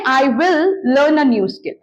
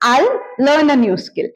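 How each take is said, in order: First: "I will" is said as two full words. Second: "I will" is shortened to "I'll".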